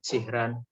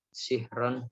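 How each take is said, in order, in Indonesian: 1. Bunyi r dibaca tipis. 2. Bunyi r dibaca tebal.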